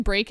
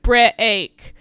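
First: Said in the usual way. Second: "Break" stretched into two syllables, like "bre-eak"; split word. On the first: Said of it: "like, one syllable". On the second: Shown as a demonstration. Host demonstrating how the singer splits "Break" into two syllables. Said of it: "he's breaking the word break".

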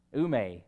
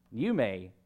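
First: Ume said as oo-MAY; Greek pronunciation. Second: Said in the usual way. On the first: Shown as a demonstration. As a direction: pronounce ume with an opening oo, then may. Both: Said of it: "that is how you pronounce it".

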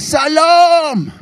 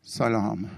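First: Long, high, loud crowd roar; roared greeting. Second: Softer, lower retold greeting; tentative greeting. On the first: Retold or imitated. Three hundred schoolchildren roaring back to him, bellowed. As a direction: bellow it like hundreds of kids answering at once. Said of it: "som brølte". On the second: Storyteller trying his one Farsi word, tentative. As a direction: quietly offer one lone word to a room. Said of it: "åpnet munnen og kikket utover og sa".

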